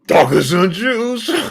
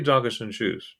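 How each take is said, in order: First: It is said brightly, with lots of energy. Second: It is said flatly, with little energy. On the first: The speaker calls it right. "You got to be animated" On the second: The speaker calls it wrong. "That's, that's too boring"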